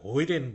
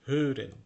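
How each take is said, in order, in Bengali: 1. প্রথম স্বরধ্বনিটি একটি গড়ানো 'oy' ধ্বনি। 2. প্রথম স্বরধ্বনিটি একটি গোলাকৃতির 'oo' ধ্বনি। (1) "বাংলাদেশে অনেকে হৈরেন বলে, এটা হৈরেন না মোটে উচ্চারণ" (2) "এটা হচ্ছে হুরেন"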